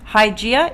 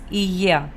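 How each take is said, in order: First: The name is said in an English-style pronunciation. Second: The name is said in its Greek pronunciation.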